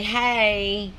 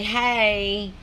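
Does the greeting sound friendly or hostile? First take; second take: friendly; friendly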